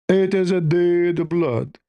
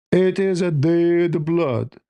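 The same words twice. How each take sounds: The two takes are said the same way.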